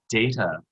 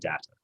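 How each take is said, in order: First: Pronounced the way the Star Trek character's name is said. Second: Pronounced the other way, unlike the Star Trek name. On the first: It slipped out from habit of the popular show. The speaker calls it wrong. "I kept saying data" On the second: It is the pronunciation the script wanted. The speaker calls it right. "rather than data"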